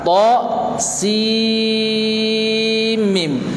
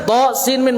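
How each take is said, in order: First: The n sound merges into a doubled m. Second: The n sound is pronounced clearly before m. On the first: The speaker calls it right. "Ini dibaca idgham" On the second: The speaker calls it wrong. "Kalau pengen dibaca idhar"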